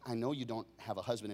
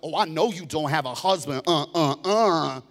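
First: It is said in a gentle, calm tone. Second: It is said in an accusing, mocking tone.

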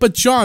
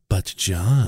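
First: It is said in a plain, ordinary way. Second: It is said in a seductive, sultry way.

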